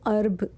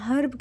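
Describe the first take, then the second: First: The word starts with a vowel, no h. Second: The word starts with a clear h sound. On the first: This is how it is said in America. "America में ना ... इसको अर्ब कह के pronounce करते हैं" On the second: This is how it is said in Pakistan. "Pakistan में तो हम हर्ब कह के बुलाते हैं"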